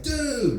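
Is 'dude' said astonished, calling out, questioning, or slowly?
calling out. It is a quick call for attention. Look at that over there. "hey, look at that over there"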